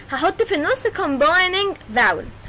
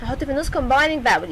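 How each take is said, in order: First: Slowly spelling out combining vowel for students; drawn-out classroom emphasis on the rule; slow emphatic teaching. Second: Said in the usual way. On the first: Shown as a demonstration. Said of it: "teacher repeats key rule slowly". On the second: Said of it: "teacher repeats key rule".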